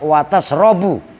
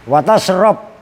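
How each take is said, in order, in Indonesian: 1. Kata kerjanya berakhir dengan vokal 'u'. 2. Kata kerjanya tidak berakhir dengan vokal. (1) "dalam keadaan rofa" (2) "dan dalam keadaan dibaca jazm"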